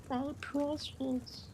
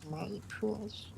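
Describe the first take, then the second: First: Much higher, slow, soft creepy croon; Gollum voice. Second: Soft, higher, creepy creature hiss; Gollum voice. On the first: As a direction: stretch it out like an obsessed golem. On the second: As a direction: croon it like a creepy little golem. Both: Pretend. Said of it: "That little golem thing's creepy".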